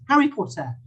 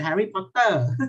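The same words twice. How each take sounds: First: English pronunciation. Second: Thai-accented Harry Potter, stretched final syllable on "Potter"; Thai pronunciation. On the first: Teacher showing the class the English way, British accent. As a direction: say "Harry Potter" the British English way. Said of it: "So in English". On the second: Teacher showing the class the Thai way, Thai accent. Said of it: "In Thai we say". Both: Shown as a demonstration.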